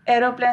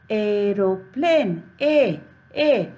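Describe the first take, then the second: First: Said in the usual way. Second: "aeroplane" slowly, then its opening "A" alone; sounded-out pronunciation. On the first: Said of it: "Aeroplane starts with A". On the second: Shown as a demonstration. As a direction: stretch "aeroplane", repeat "A" as its first sound. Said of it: "we will pronounce it". ("aeroplane" धीरे, फिर पहली ध्वनि "A")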